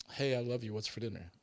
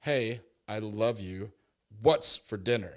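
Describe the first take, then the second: First: Light, sweet reading of a loving text; innocent, loving tone. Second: Slow, louder, loaded reading; ominous, pointed tone; accusing text reading. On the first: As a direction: read it as a friendly question. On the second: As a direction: read it like she's mad at you. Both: Shown as a demonstration. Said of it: "where's the inflection?".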